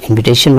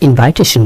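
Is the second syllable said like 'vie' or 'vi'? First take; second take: vi; vie. First: The second syllable has a short 'i' vowel. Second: The second syllable has a long 'eye' vowel. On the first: The speaker calls it right. "উচ্চারণটা হবে ইনভিটেশন" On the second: The speaker calls it wrong. "আমরা ইনভাইটেশন বলি এটি ভুল"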